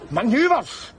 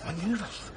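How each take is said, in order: First: Indignant echo. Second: Quiet disbelief. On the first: Repeats the word indignantly. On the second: Repeats the soldier's word. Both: Acted.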